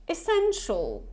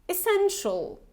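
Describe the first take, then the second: Both takes have the same delivery.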